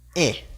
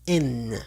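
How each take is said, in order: First: The vowel is nasal with no final n. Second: A final n consonant is clearly pronounced. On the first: This is the French reading. "pero en francés solamente vamos a decir E" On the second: This is the Spanish reading. "si tenemos E N en el español sería en"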